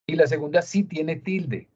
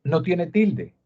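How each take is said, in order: First: 「sí」を強く押し出し、最後は下げる; 「sí」を際立たせて対比を示す; stress on sí. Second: 「no」を強めて、「tilde」で下げる; 「no」に重みを置き、否定をはっきり言う; stress on no. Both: Shown as a demonstration. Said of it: "La diferencia entre esas dos".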